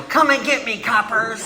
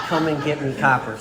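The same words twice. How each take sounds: First: Put-on high-pitched shout in an old gangster-movie style; defiant yell. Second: Toned-down fifties movie gangster line; old movie actor. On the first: Drunk man in the gully taunting police, defiant yell. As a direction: holler it out like a cornered movie outlaw. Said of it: "I yell". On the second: Retold or imitated. Speaker mocking his drunk self, old movie actor voice.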